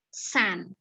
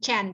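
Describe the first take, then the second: First: The word begins with an s sound. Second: The word begins with a non-s sound. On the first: The speaker calls it right. "soundnya sound S" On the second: The speaker calls it wrong. "Jangan chan, salah banget"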